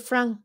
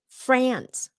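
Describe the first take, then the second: First: It is said with a French-style vowel. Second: It is said with a short 'a' like apple. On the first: The speaker calls it wrong. "pronounce France with the Vietnamese slash French accent" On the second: The speaker calls it right. "That short A, giống như là apple"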